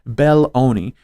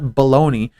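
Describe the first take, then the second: First: The name is said as Bel-lo-ni. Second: The name sounds like the word baloney. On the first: The speaker calls it right. "Matthew Belloni" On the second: The speaker calls it wrong. "not Baloney"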